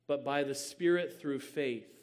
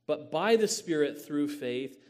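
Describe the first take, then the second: First: Said in the usual way. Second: The whole phrase "But by the Spirit through faith" said again louder, with weight on "by"; emphatic repeat. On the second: Shown as a demonstration.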